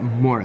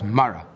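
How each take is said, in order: First: The first vowel sounds like 'oh'. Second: The first vowel sounds like 'ah'. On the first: The speaker calls it wrong. "it's not Mora" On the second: The speaker calls it right. "it's Mara"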